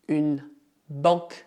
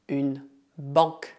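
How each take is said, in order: Both takes have the same delivery.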